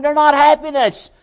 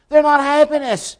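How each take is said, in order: First: "not" hit hardest, high and loud, in "they're not happiness"; stress on not. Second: "They're" hit first and hardest, high, in "They're not happiness"; stress on they're. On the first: Preacher mocking the world, punching "not". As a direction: lean on "not" in the high scoffing voice. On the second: Preacher repeating the world's scoff, stressing "They're". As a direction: open loud on "They're", then fall. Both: Retold or imitated.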